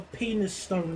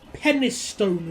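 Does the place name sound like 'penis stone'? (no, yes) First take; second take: yes; no. First: The name is said as 'penis stone'. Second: The name is said without sounding like 'penis stone'.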